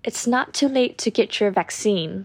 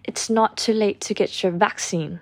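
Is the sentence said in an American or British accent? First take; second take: American; British. First: It is said in an American accent. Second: It is said in a British accent. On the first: "อันนี้แบบอเมริกันนะคะ" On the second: "ส่วนแบบ, British, เนี่ยจะเป็น"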